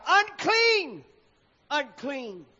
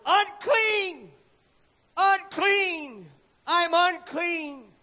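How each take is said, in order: First: Cried out. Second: High, loud anguished cry of unclean, slowing at the end; the leper choking out unclean as he steps outside; choked-out cry. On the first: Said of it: "and shall cry". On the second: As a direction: cry out your shame to the street. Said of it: "choked out these dreaded words". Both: A narrator's reading.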